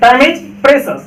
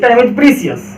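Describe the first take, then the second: First: The word ends in a single 'sus' syllable. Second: The word ends in a two-syllable 'see-us' sound. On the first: The speaker calls it right. "ये है प्रे, ये है सस, तो प्रेसस" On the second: The speaker calls it wrong. "ना कि time is प्रीसियस"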